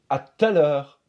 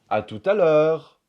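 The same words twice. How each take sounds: First: The ou of tout is dropped. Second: The ou of tout is fully pronounced. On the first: The speaker calls it right. "on va dire" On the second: The speaker calls it wrong. "au lieu de dire"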